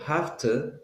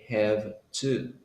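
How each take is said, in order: First: It is quick and reduced, with an f sound. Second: It is slow and careful, with a v sound.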